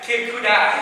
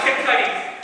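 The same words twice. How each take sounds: First: Kudai ending in a long "eye" sound; mispronounced name. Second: Said in the usual way. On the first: Retold or imitated. Comic retelling girlfriend's name blunder, Kudai rhyming with "die". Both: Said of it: "used to mispronounce names".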